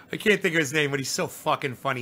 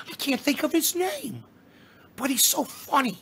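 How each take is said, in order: First: Said in the usual way. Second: High, put-on goofy comic voice; pitched-up mock comedian impression; comedian's funny voice. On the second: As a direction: mimic the comedian's silly high voice. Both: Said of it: "talks like this".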